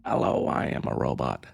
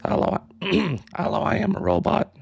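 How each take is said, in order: First: Robot voice pushed much lower and softer; deeper robot voice. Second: A weak, barely changed robot voice; half-hearted attempt at a machine voice. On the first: Retrying the robot voice for chat, much lower. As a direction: drop it down low like a machine. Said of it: "I can't do a robot voice". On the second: Showing chat her robot voice, lightly done. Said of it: "so I can do robot voice". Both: Shown as a demonstration.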